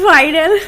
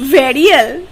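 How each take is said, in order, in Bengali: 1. শব্দটি 'vai' ডিফথং দিয়ে শুরু। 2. শব্দটি ছোট 'va' উচ্চারণ দিয়ে শুরু।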